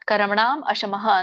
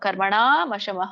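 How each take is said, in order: First: The two words are said as separate words. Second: The two words are run together as one. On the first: "ಅಂತ ಹೇಳಿ ಹೇಳ್ಬೋದು" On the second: "ಕೂಡಿ ಹೇಳ್ಬೋದು"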